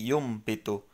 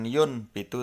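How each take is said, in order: First: The nasal before b is an m sound. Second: The nasal before b is an n sound. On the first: The speaker calls it right. "tapi yum bitu" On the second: The speaker calls it wrong. "bukan yun bitu"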